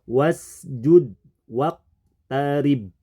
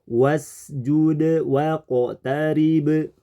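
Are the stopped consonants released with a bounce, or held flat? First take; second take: flat; bounce. First: The stopped consonants are held flat, without bounce. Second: The stopped consonants are released with a bounce. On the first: The speaker calls it wrong. "kita merubahnya menjadi tidak mantul" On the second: The speaker calls it right. "seharusnya ayat ini dibaca memantul"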